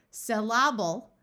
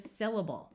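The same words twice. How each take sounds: First: "Syllable" as suh-LAB-ul, second syllable punched; incorrect stress. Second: "syllable" as SIL-uh-bul, first syllable stressed; correct stress. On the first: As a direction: slowly hit LAB in "Syllable". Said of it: "accent on the second syllable". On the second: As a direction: put the weight on SIL in "syllable". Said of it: "which is in the wrong spot". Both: Shown as a demonstration.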